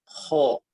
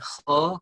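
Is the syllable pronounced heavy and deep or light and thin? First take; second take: heavy; light. First: The syllable sounds heavy and deep. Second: The syllable sounds light and thin. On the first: It is the proper recitation pronunciation. The speaker calls it right. "Yang betul adalah kho" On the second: It is the everyday local pronunciation. The speaker calls it wrong. "kalau kho Indonesia"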